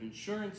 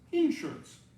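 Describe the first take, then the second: First: It is said the Pennsylvania way. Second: It is said the Texas way.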